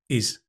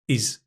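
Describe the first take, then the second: The two takes are said the same way.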